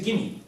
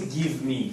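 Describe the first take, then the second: First: The two words are run together quickly. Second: The two words are said fully and separately. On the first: The speaker calls it right. "You say" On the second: The speaker calls it wrong. "You don't say"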